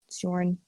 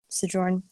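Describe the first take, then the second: First: The J is sounded like a Y. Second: The J is sounded as in jump. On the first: The speaker calls it right. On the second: The speaker calls it wrong.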